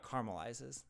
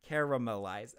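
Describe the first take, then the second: First: "caramelizes" as CAR-mul-izes, one syllable fewer; dropped second a. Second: "caramelize" as CARE-uh-muh-lize, all four syllables; too many syllables. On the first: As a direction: insist on "caramelizes" without the middle a. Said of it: "Yeah, I drop it". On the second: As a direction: spell out each syllable of "caramelize". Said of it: "that's too many syllables". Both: Shown as a demonstration.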